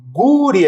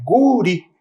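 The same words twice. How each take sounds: First: "Guri" high and loud, lips pushed out on gu; teacher exaggerating the pout of "Guri"; rounded lips. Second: Teacher exaggerating the pout of "Guri"; rounded lips. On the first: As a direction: pout on "Guri", louder and higher. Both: Shown as a demonstration. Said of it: "a gente faz até um bico".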